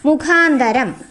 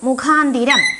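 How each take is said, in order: First: The third syllable has an 'a' vowel. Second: The third syllable has an 'i' vowel. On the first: The speaker calls it right. "ശരിയായ ഉച്ചാരണം എന്താണ്? മുഖാന്തരം" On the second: The speaker calls it wrong. "മുഖാന്തിരം എന്നല്ല"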